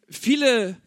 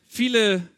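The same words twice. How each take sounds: The two takes are said the same way.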